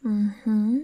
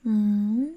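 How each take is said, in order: Both takes have the same delivery.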